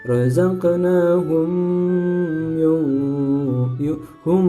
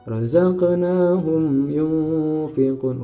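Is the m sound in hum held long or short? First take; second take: long; short. First: The m sound is held too long. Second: The m sound is short and clear. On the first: The speaker calls it wrong. "tidak boleh dibaca ... mimnya terlalu lama itu nggak boleh" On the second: The speaker calls it right. "Humnya harus dibaca jelas"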